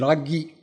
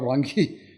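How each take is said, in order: First: The middle consonant is a plain 'g' sound. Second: The middle consonant is a nasal 'ng' sound. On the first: The speaker calls it right. "it is Ragi" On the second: The speaker calls it wrong. "some people pronounce it wrongly as Rangi. It is not Rangi"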